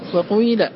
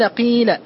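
First: The first vowel mixes i with some u sound. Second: The first vowel is a pure i sound. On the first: "والإشمام خلط الكسرة بشيء من صوت الضمة" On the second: "الوجه الأول إخلاص الكسر"

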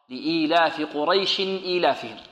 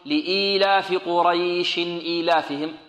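First: The vowel in Quraysh is kept short. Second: The vowel in Quraysh is drawn out. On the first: The speaker calls it right. "لا خطأ" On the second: The speaker calls it wrong. "لا نأتي في الوصل نقول"

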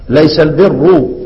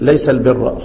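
First: The final word ends with a 'u' vowel. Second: The final word ends with an 'a' vowel. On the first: The word is read as the subject of the sentence. "طبعا الطبيعي اللي انت من المفترض تقرأه" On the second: The word is read as the predicate of the sentence. "انما هنا بيقرأ الحفص والامام يقرأان ايه؟"

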